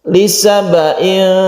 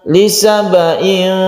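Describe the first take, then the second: No difference in how they are said.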